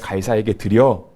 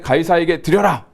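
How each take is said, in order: First: It is said in a calm, matter-of-fact tone. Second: It is said in a slightly angry tone. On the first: The tax should simply be paid. "톤을 섞어서" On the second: It is unclear whether the tax should be paid. "조금 성난 어조로 ... 조금 화를 내면서"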